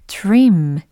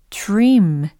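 No difference in how they are said.

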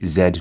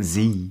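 First: The letter is said the British way, zed. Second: The letter is said the American way, zee.

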